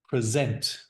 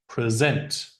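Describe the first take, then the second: The two takes are said the same way.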